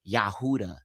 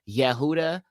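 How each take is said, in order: First: The first vowel sounds like 'ah'. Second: The first vowel sounds like 'eh'. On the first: This is how the speaker normally says it. The speaker calls it right. "I'm trying to say it regularly like I would" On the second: This is how speakers of that Hebrew say it. The speaker calls it wrong. "his name is Yehuda"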